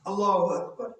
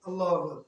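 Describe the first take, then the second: First: The phrase is said slowly and unhurriedly. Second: The phrase is said quickly and rushed. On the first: The speaker calls it right. "ধীরে করব। ... আস্তে বলবেন।" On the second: The speaker calls it wrong. "দুই মিনিটে চার রাকাত নামাজ।"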